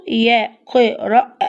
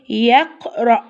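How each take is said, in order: First: "يقرأ" broken into slow syllables, ending on the a; teacher slowly breaking up "يقرأ"; slowly sounded out. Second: Said in the usual way. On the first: Shown as a demonstration. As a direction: stretch "يقرأ" so the final alef is heard. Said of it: "سمعنا صوته فين؟".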